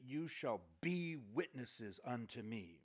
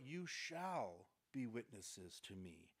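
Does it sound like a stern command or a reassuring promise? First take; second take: stern command; reassuring promise. First: It sounds like a stern, demanding command. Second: It sounds like a warm, reassuring promise.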